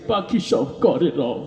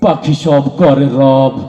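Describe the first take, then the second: First: It is recited while crying, in a tearful voice. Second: It is recited in a frightening, menacing manner. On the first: "কান্দি দিয়ে কইতে আছে" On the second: "তোরটা তোরে বেশি ভয়ঙ্কর শোনা গেল"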